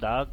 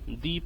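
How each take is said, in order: First: The word ends in a short 'uh' vowel. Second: The word ends in a long 'ee' vowel.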